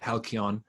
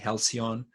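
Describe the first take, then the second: First: The word is pronounced the Greek way. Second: The word is pronounced the English way. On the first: "I pronounce it in the Greek way" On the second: "in English it will be with a C officially"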